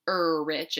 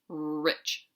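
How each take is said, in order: First: An extra vowel comes before the r sound. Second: The word starts directly with the r sound. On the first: The speaker calls it wrong. "we don't say er rich" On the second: The speaker calls it right. "it's rich"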